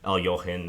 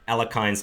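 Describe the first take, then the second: First: The name has an original-style pronunciation. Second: The name has an Americanized pronunciation. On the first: It is the proper form of the name. The speaker calls it right. "the correct pronunciations pronunciation" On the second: It is more recognizable to listeners. The speaker calls it wrong. "it's just kind of the Americanized way of pronouncing it"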